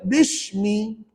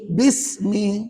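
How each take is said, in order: First: The middle consonant is pronounced as 'sh'. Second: The middle consonant is a clear, thin 's'. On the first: The speaker calls it wrong. "ada yang baca bishmi" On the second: The speaker calls it right. "kena kamu baca dengan huruf sin yang jelas"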